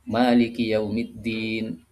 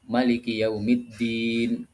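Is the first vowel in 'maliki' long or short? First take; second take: long; short. First: The first vowel of maliki is held long. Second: The first vowel of maliki is kept short. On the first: "membacanya panjang" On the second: "ma-nya pendek"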